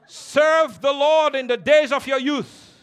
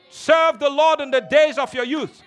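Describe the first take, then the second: First: Slow, weighty exhortation; a deliberate first call; slow emphatic. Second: Full-voiced shout over the music; a fiery preaching cry; preacher's shout. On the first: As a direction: lay each word down slowly. Repeated exhortation. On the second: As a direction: shout it to the congregation. Repeated exhortation, shouted. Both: Real, not acted.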